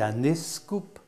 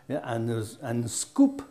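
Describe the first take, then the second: First: A vowel sound comes before the s sound. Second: The word starts directly with the s sound. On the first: This is how the local dialect says it. "on dit un escoop en un patois" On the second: This is the standard form, not the local dialect's. "on ne dit pas un scoop"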